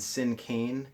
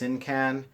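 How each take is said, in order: First: The last syllable sounds like the word cane. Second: The last syllable does not sound like cane. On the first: This is the more common way. "the more uh, common pronunciation for this word is Sincaine" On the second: This is the less common way. "I've heard it pronounced"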